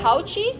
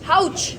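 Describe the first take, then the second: First: The word ends with an added 'ee' vowel. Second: The word ends on the 'ch' consonant. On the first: The speaker calls it wrong. "How do you pronounce it, like हाउची?" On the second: The speaker calls it right. "उसकी प्रोनाउंसिएशन है हाउच"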